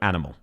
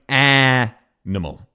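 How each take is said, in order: First: All syllables are flat and equal in length. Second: The first syllable is held about twice as long. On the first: The speaker calls it right. "It is very flat. There is no emphasis. Each of the syllables is the same length" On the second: The speaker calls it wrong. "She is basically doubling the length of the first syllable"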